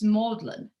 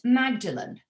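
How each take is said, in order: First: The name is pronounced unlike its spelling. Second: The name is pronounced just as it is spelled. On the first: "pronounced Magdalene by anybody who knows how to pronounce it" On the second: "spelt Magdalene, like, you know, Mary Magdalene of the Bible"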